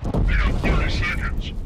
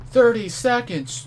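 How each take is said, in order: First: Breathy murmur. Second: Surprised outcry. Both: Real, not acted.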